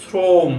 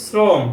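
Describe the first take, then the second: First: শ্রম as a long, drawn-out "srooom" with rounded o; teacher models শ্রম with long o; o-sound demo. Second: শ্রম with an open aw vowel; teacher shows শ্রম with open vowel; spelling pronunciation. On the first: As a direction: stretch the o in শ্রম slowly. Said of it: "ও হয়ে গেছে". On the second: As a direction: say শ্রম as written, "srawm". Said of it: "অ, এখানে কিন্তু উচ্চারণের". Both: Shown as a demonstration.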